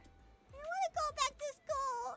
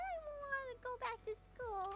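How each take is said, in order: First: It is said loudly. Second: It is said quietly.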